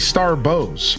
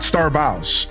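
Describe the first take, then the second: First: Bows rhymes with goes, like a gift bow. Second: Bows rhymes with cows, like take a bow. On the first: The speaker calls it right. "you're supposed to be Star Bows" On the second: The speaker calls it wrong. "not Star Bows"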